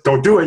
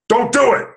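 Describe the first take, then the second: First: It sounds only a little angry. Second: It sounds really angry.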